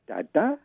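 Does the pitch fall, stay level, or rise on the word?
rise. The pitch rises on the word. It is a question. "with a kind of rising tone"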